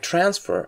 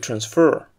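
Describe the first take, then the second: First: The stress is on the first syllable. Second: The stress is on the second syllable. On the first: It names the process of moving something. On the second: It is the action of moving something.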